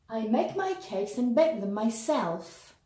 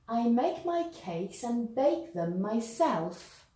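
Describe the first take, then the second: First: The sentence is spoken at a faster pace. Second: The sentence is spoken at a slower pace.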